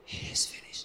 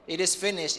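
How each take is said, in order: First: It is said weakly, in defeat. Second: It is shouted loudly, in triumph.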